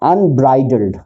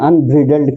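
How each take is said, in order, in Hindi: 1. बीच के अक्षर में लंबा 'eye' स्वर है। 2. बीच के अक्षर में छोटा 'i' स्वर है। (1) "जो वर्ड था अनब्राइडल्ड" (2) "मैंने अनब्रिडल्ड कहा था"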